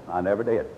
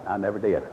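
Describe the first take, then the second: No difference in how they are said.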